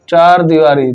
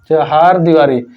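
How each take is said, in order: First: The first word is said as one syllable, char. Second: The first word is said as two syllables, cha-har. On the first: The speaker calls it wrong. "चार दीवारी गलत है" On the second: The speaker calls it right. "चहार दीवारी आपका एकदम सही है"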